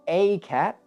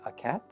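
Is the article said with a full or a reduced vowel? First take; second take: full; reduced. First: The article is full and stressed. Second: The article is short and unstressed. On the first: "So we are emphasizing that" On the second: "So the weak form"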